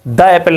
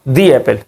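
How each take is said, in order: First: 'The' is said with a short 'uh' vowel. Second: 'The' is said with a long 'ee' vowel. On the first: The speaker calls it wrong. "द Apple नहीं पढ़ेंगे" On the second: The speaker calls it right. "हम उसे पढ़ेंगे दी Apple"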